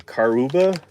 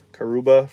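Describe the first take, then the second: First: "Karuba" with an open "kar" and a clear r; first try at the name. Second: "Karuba" with a weak r-coloured first syllable, slightly louder; corrected pronunciation. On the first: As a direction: say "Karuba" as KAR-oo-ba, the r fully sounded. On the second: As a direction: say "Karuba" as kuh-ROO-ba, the first vowel reduced and r-coloured. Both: Shown as a demonstration. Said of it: "That's how you say that".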